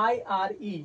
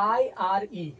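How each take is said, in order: Both takes have the same delivery.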